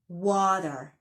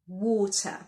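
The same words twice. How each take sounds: First: The middle consonant sounds like a D. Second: The middle consonant is a clear T. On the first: The speaker calls it wrong. "not as a D" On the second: The speaker calls it right. "The letter T is pronounced as a T"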